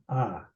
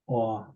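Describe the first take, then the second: First: The vowel is an open unrounded ah sound. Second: The vowel is a rounded aw sound.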